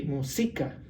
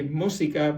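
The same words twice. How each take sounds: First: Música wrongly stressed on "si", mu-SI-ca; stress on middle syllable. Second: Música stressed on "mú", MÚ-si-ca; stress on first syllable. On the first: Teacher shows música by the plain rules, stressed on "si". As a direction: push the weight onto the "si" of música. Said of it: "more difficult to pronounce". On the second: Teacher gives the easier way, música stressed on "mú". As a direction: put the weight at the start of música. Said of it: "better to say música". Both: Shown as a demonstration.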